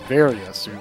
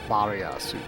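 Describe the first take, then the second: First: It is pronounced the English way, with a 'v'. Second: It is pronounced the Japanese way, like 'barrier'. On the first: This sounds more natural to English speakers. "it's okay to say it in English as" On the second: This is the original Japanese form. "you would say it in Japanese is like"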